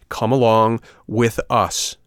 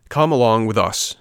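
First: Slow, loud "Come along with us"; emphatic order. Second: Loud, brisk soldier's command; firm order. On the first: Soldier repeats the order to the puppet, slow and emphatic. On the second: Soldier cuts off the puppet's protest, firm order. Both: A narrator's reading.

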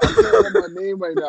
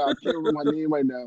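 First: Much higher, fast squeaky take; high-pitched repeat. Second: Said in the usual way. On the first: Pretend. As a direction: pitch it way up and rush it.

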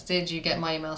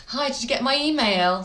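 First: Said in the usual way. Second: Higher-pitched mock follow-up call; lightly hammed-up phone enquiry; pestering caller. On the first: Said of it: "Never, ever utter those three words". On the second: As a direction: imitate an over-eager caller chasing a reply. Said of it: "if you say".

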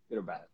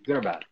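First: Quiet. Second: "good or bad?" asked high and bright; plain. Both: Real, not acted.

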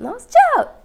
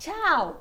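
First: Tchau muito agudo e alto, voz rachando; grito de tchau com a voz quebrando; voz falhando. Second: Tchau agudo com a voz quebrando; a voz racha no tchau; voz falhando. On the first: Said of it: "E eu tô super gripada mesmo". (tchau esganiçado de voz gripada) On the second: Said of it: "Nossa, minha voz falhou muito". (voz falhando num tchau alto) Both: Real, not acted.

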